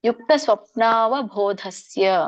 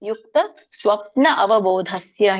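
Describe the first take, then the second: First: Svapna and avabodhasya are fused into one word. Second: Svapna and avabodhasya are said as separate words. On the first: "ಕೂಡಿ ಹೇಳೋದಾದ್ರೆ ಕೂಡಿ ಹೇಳಿ" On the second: "ಇಲ್ಲಾಂದ್ರೆ ಯುಕ್ತ ಸ್ವಪ್ನ ಅವಬೋಧಸ್ಯ ಹೇಳ್ಬೋದು"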